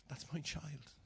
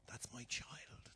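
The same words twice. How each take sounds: First: Said in the usual way. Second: Put-on soft, slow whispered "That's my child". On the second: Shown as a demonstration. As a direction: breathe it out.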